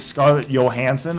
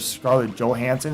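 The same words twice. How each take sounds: First: The J is not said as an English J. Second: The J is said as an English J.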